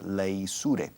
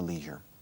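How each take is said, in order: First: It is said with a British pronunciation. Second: It is said with an American pronunciation. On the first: "The pronunciation changes in Britain" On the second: "in America"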